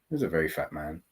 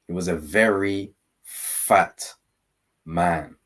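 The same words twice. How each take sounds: First: It is said in an admiring, pleased tone. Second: It is said in a disgusted tone.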